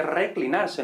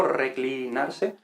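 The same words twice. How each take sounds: First: Said in the usual way. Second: "reclinarse" muy lento, alargando "cli"; "cli" resaltado. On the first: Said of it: "aquí vemos clítico". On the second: Shown as a demonstration. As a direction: estira la sílaba "cli" de "reclinarse". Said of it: "Entonces aquí vemos clítico". ("reclinarse" despacio, resaltando la raíz de clítico)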